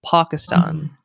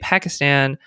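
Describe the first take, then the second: First: It is said with a non-American pronunciation. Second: It is said with an American pronunciation. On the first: "they say Pakistan" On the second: "I say Pakistan"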